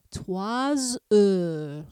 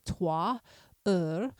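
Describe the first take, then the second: First: Trois heures linked with a buzzing z sound; trois heures with liaison. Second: Trois then heures with a pause, no S sound; trois heures said separately. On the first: Teacher demonstrating the liaison in trois heures. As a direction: join trois heures, the S voiced like z. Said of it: "I do pronounce that S". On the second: Teacher showing trois and heures as separate words. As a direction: say trois and heures apart, silent S. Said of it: "Again, those are separate". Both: Shown as a demonstration.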